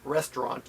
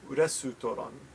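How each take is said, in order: First: It is pronounced with English sounds. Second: It is pronounced with Japanese sounds. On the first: The speaker calls it wrong. "too much like English. It's not restaurant" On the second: The speaker calls it right. "It's restaurant"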